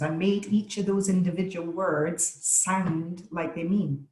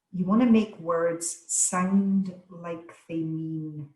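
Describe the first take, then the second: First: Said in the usual way. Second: Each of "you want to make words sound like they mean" weighted, slow; emphatic slow delivery. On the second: Shown as a demonstration. Speaker demonstrating emphasis to webinar audience, slow and weighted. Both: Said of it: "that's what I just did there on that sentence".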